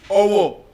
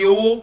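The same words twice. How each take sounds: First: Its tones give the word naming a place. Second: Its tones give the word meaning money. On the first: It names a town. "Owo is a place in Ekiti" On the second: It means money. "Owo means what? Money"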